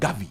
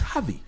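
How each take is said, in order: First: The name begins with a hard g sound. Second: The name begins with a throaty h-like sound. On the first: The speaker calls it wrong. "not Gavi. It's not G A" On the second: The speaker calls it right. "It's Javi, X A"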